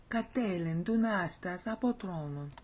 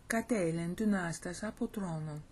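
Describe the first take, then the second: First: Dunastas stressed, with a steady beat through the phrase. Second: Katelen stressed at the start, then a steady beat. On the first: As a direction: lean on dunastas and keep the rhythm. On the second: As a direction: open hard on katelen. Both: Shown as a demonstration. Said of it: "See how it's, it's got that beat to it?".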